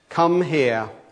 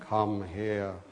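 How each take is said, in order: First: The voice is firm and not dropped. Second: The voice is dropped low and quiet. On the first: A parent is showing authority. "the voice of authority" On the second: Something very serious has been done. "when you drop your voice, it can be quite scary"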